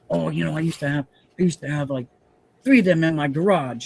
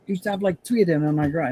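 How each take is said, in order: First: Loosely imitating a Queens fireman's New York talk; rough, half-hearted New York mobster-ish accent. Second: Put-on a second try at the New York accent, pushed higher; hammed-up New York mobster voice. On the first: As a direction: tries for brother-in-law's New York accent, slides toward a mobster. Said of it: "I can't even talk like him because I'm talking more like a, a mobster". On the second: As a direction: play it like a movie mobster from Queens. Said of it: "that's what it sounds like".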